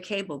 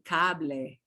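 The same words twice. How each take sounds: First: The final e is silent, English style. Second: The final e is clearly pronounced, Spanish style. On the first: "we say cable" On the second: "They say cable. You have to say the E at the end"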